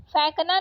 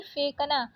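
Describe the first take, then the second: First: फेंकना said "phaik-na"; wrong vowel. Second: Said in the usual way. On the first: Shown as a demonstration. Teacher rejecting a spelling, फेंकना with ai vowel. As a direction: open the e of फेंकना to ai. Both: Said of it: "फेंकना नहीं".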